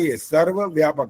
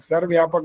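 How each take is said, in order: First: The word is said fully in two clear parts. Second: The word is said run together and unclearly. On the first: The speaker calls it right. "सर्वव्यापक अलग पूरा बोलना होता है" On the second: The speaker calls it wrong. "सर्वव्यापक नहीं होता"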